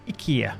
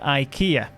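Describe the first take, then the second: First: It is said with a Swedish pronunciation. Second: It is said with a British pronunciation.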